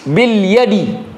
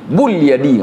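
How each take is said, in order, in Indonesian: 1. Kata pertama memiliki vokal i. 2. Kata pertama memiliki vokal u. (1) "huruf jar pada ba itu harokatnya kas kasrah" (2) "nggak boleh"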